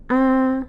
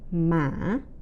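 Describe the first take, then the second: First: The pitch stays flat at mid level. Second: The pitch dips low, then rises like asking. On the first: "the flat or the mid-level tone" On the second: "the asking or low rising tone"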